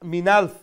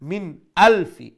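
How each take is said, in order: First: The words run together without a glottal catch. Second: A firm glottal catch separates the two words. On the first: The speaker calls it wrong. "মিনালফ এইরকম বলবেন না" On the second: The speaker calls it right. "এই হামজাটাকে আরো একটু শক্ত করে উচ্চারণ করতে হবে"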